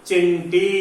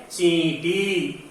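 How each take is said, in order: First: चिंटी said with short i; चिंटी with short clipped i; wrong short i. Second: चींटी drawn out slowly with long nasal ii; correct long nasal i. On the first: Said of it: "लेकिन शब्द तो चिंटी नहीं है". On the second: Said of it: "शब्द क्या है?". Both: Shown as a demonstration.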